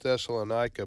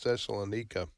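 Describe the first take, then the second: First: The name is said in the American way. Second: The name is said in the Greek way. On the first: This is how Americans say it. "we Americans call it" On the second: This is how local people say it. "but it's Thessalonica, I think, to those folks"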